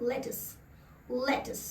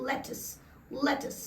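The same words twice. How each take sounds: The two takes are said the same way.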